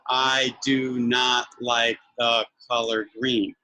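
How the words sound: Each word is said separately with pauses between. The speaker calls it wrong. "they'll sound like a robot"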